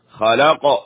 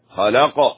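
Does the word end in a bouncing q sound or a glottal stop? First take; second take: bouncing q; bouncing q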